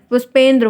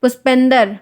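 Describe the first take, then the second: First: पुष्पेंद्र with a clean "ndr" cluster; पुष्पेंद्र as written; correct pronunciation. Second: पुष्पेंदर with an extra vowel, ending "-dar"; पुष्पेंदर as careless speakers say it; wrong pronunciation. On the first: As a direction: say पुष्पेंद्र properly, ending "-ndra". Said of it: "पुष्पेंद्र होता है". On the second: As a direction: break the cluster in पुष्पेंदर. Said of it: "ब्रजेंद्र को बढ़ाकर ब्रजेंदर". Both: Shown as a demonstration.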